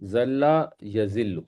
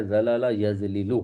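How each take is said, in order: First: "ذل یذل" as ZAL-la ya-ZIL-lu, very slowly; flowing contracted pronunciation. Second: "زلل یذلل" as za-la-la ya-zli-lu; every l separate in "زلل یذلل"; uncontracted pronunciation. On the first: Teacher models the answer, "ذل یذل" as ZAL-la ya-ZIL-lu, slow. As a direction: hold the doubled l in "ذل یذل". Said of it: "فلو میں یہ کیا بنے گا". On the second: Teacher sets the exercise, "زلل یذلل" as za-la-la ya-zli-lu. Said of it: "ضرب یضرب کے وزن پر بنتا ہے". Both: Shown as a demonstration.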